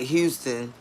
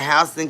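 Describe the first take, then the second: First: Houston is said the usual Texas way. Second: Houston is said the local Georgia way. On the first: It names the city in Texas. "spelled just like Houston, Texas" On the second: It names the county in Georgia. "We pronounce it Houston County"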